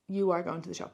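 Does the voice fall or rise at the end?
fall. The voice falls at the end. It is a plain statement. "you leave it as a sentence"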